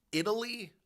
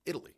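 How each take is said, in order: First: Italy said higher, set apart after a pause; Italy punched high to set the record straight; emphatic Italy. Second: Said in the usual way. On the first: Real, not acted. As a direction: lean on Italy as the correction.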